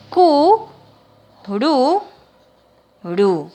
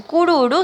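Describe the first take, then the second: First: "Cu, ru, ru" with pauses, stepping down in pitch; syllable-by-syllable dictation. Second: Said in the usual way. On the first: Shown as a demonstration. Teacher filling in word squares, "Cu, ru, ru" syllable by syllable. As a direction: separate each syllable of "Cu, ru, ru". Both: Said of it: "una sola letra por cuadro".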